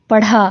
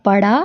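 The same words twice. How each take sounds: First: पढ़ा with an aspirated ढ़. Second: पड़ा with an unaspirated ड़. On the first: Teacher contrasting two words, aspirated ढ़ in पढ़ा. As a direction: breathe through the ढ़ in पढ़ा. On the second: Teacher contrasting two words, unaspirated ड़ in पड़ा. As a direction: keep breath out of the ड़ in पड़ा. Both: Shown as a demonstration. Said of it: "दोनों की आवाज़ में भी फ़र्क".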